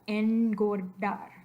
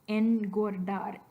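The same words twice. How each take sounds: The two takes are said the same way.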